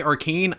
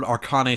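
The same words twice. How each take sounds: First: "Arcane" said as ar-KANE; two syllables in "Arcane", rhyming with cane; alternative pronunciation. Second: "Arcane" said as ar-KAH-nay; three syllables in "Arcane", ending in -ay; alternative pronunciation. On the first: YouTuber offers other studio name reading, "Arcane" as ar-kane. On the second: YouTuber unsure of studio name, "Arcane" as ar-kah-nay. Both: Shown as a demonstration. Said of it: "It might be Arcane, I don't know".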